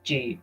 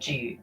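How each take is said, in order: First: The words merge into a single 'j' sound. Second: The words merge into a single 'j' sound.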